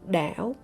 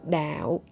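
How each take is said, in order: First: It is said with the hỏi tone. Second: It is said with the low nặng tone. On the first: It means island. "when I speak with the tongue Hỏi" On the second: It means religion. "the tongue nặng, which is lower tongue"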